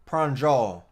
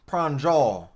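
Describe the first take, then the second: No difference in how they are said.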